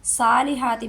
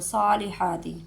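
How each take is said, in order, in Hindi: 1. s और h की आवाज़ हल्की और सादी है। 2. s भारी है; h गले से आता है। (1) "व आमिलु सालिहाति भी नहीं पढ़ना" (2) "स्वाद को पुर करेंगे, मोटा करेंगे, हा को गले से निकालेंगे"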